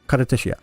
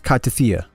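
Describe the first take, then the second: First: The name is said with Japanese pronunciation. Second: The name is said with English pronunciation. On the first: "the Japanese is Kartethia" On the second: "in English it's Kartethia"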